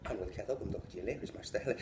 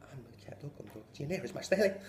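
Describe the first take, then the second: First: Rattled-off Irish sentence; fast Irish phrase. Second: Rattled-off Irish sentence; even faster Irish. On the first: Teacher making the boy say it in Irish, fast. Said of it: "you have to say". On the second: Teacher repeating the Irish phrase, rapid. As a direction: rattle it off at speed. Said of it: "That bitch said it fucking faster". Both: Retold or imitated.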